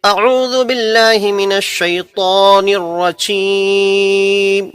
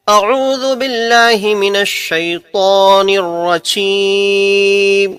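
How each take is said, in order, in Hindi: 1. यह वाक्य एक सांस में कहा जाता है। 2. यह वाक्य एक सांस में कहा जाता है।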